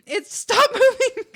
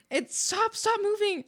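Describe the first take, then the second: First: High and loud, slow, laugh breaking the words; stop, stop, and crack up halfway; giggling so hard the plea stretches out. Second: Excited plea. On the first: Same plea dissolving into laughter. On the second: Chat message keeps moving. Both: Real, not acted.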